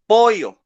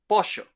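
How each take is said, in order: First: It is said in a Peruvian accent. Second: It is said in a Uruguayan accent. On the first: "she's from Peru, and she says pollo" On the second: "this lady is from Uruguay, and she says pollo"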